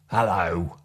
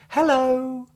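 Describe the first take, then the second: First: It is said in a sharp, angry tone. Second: It is said in a cheerful, happy tone. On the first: "or an angry hello" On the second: "A happy hello"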